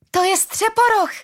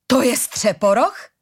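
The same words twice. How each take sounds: First: Put-on very high, excited child's cry; small child shouting. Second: Slow, raised, disbelieving question; incredulous question. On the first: Small child spots Střeporoch while dragged away, shouting. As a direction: pipe it up high like a little child. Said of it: "křiklo malé dítě". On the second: Tall woman at the bridge sees Střeporoch, incredulous. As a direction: ask it slowly, unable to believe it. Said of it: "zeptala se nevěřícně". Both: A narrator's reading.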